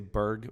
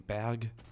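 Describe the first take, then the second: First: The word is said with an English pronunciation. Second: The word is said with a German pronunciation. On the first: "I say Berg when I say it in English" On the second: "the Germans don't say Barry, they say Berg"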